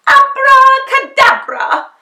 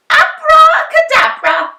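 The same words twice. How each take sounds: First: Loud, high, slow magic shout; shouted spell. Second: Loud, high magic shout; shouted spell. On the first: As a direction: call out the spell grandly. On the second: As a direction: cast it again boldly. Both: A narrator's reading. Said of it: "and shouted".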